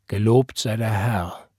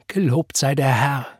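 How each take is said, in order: First: Slow, measured reply; reserved stern father, lightly voiced; father's restrained answer. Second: Joyful praise through tears, understated; slightly raised, moved voice; tearful, smiling. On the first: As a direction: echo the praise slowly, without joy. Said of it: "antwortete sein Vater". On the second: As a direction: say it lifted, with a smile through tears. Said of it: "Noch immer unter Tränen, noch immer lächelnd". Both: A narrator's reading.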